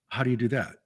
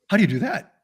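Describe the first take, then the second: First: The question sounds puzzled and doubtful. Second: The question sounds curious and impressed. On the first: The listener does not understand what was described. The speaker calls it wrong. "they scrunch their eyebrows down, you've just confused them" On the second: The listener is interested and wants to know more. The speaker calls it right. "Same words, different inflection. You got their attention"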